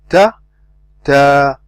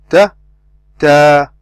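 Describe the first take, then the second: No difference in how they are said.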